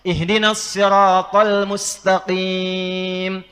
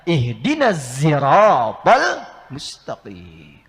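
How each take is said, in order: First: The word sirat begins with an emphatic s. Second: The word sirat begins with a z sound. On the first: "Sod, hafaz dari Asim" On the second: "Maka turunlah riwayat nanti menggunakan zai"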